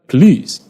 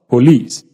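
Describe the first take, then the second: First: The unstressed vowel is reduced to uh. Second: The unstressed vowel is said as a full vowel. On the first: The speaker calls it right. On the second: The speaker calls it wrong.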